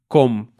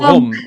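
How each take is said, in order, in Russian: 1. Начинается с обычного твёрдого звука k. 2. Начинается с горлового фрикативного звука, похожего на g. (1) "как по-русски мы говорим" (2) "я пытаюсь произносить этот звук, это очень трудный звук"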